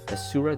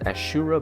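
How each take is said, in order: First: The middle consonant is a plain 's' sound. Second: The middle consonant is an 'sh' sound. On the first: The speaker calls it right. "Asura, not Ashura" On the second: The speaker calls it wrong. "not Ashura"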